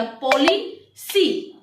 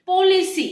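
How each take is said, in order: First: पॉलिसी said very slowly, broken into its syllables; split into syllables. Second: Said in the usual way. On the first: Shown as a demonstration. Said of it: "देखिए इसको आप तोड़ेंगे तो क्या बनेगा". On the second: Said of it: "तो जैसे".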